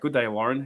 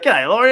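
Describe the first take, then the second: First: Both words of 'good day' are said in full. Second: 'Good day' is squeezed into one quick word. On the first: It sounds overly formal. "That just sounds too proper" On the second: It sounds casual and everyday. "We shorten that down"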